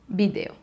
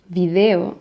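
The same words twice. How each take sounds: First: The first sound is said like a b. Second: The first sound is said like a v. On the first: Many speakers make no b and v difference. "some people can say video" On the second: The b and v difference is marked. "Or video"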